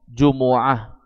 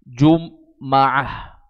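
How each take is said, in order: First: The m is followed by an u vowel. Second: The m is followed by an a vowel. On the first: "membacanya dengan dhammah" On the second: "dengan fathah mimnya"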